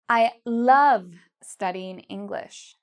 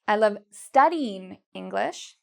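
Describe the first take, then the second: First: The stress is on the word love. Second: The stress is on the word studying. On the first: "love is the part I'm saying louder and longer" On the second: "take the stress here and we move it to studying"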